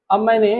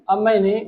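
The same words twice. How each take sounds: The two takes are said the same way.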